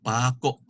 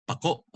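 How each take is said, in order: First: PAKO with stressed long PA and stopped KO; glottal catch. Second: PAKO quick, stressed KO cut off in the throat; final stress, glottal stop. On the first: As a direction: lengthen PA, catch the throat after KO in PAKO. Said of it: "You hear the catch?". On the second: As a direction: hit KO in PAKO and stop it short. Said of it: "pronounced fast with the accent on the last". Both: Shown as a demonstration.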